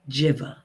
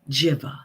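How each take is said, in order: First: The first vowel sounds like 'ih'. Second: The same.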